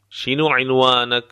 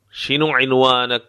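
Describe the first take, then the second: No difference in how they are said.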